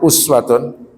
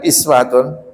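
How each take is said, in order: First: The first vowel is a 'u' sound. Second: The first vowel is an 'i' sound. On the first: "dhammah uswatun" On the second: "bisa dibaca iswatun"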